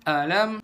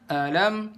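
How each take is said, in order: Both takes have the same delivery.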